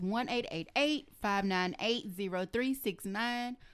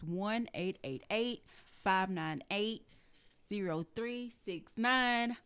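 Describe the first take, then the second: First: The number is said at normal speed. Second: The number is said slowly.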